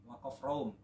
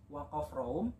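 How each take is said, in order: Both takes have the same delivery.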